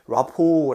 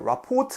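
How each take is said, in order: First: The final T is silent. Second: The final T is pronounced. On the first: The speaker calls it right. "T는 silence, 즉 묵음입니다" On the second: The speaker calls it wrong. "T 발음하면 틀린 겁니다"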